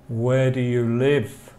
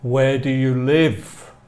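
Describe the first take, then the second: No difference in how they are said.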